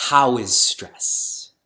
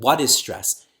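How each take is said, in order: First: How is stress, slow, with how pressed hard. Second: What hit firmly, the rest falling away; stress on what. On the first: Teacher showing the wrong question people answered, stressing how. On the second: Teacher contrasting what with how for the audience, stressing what. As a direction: lean on the word what. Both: Shown as a demonstration.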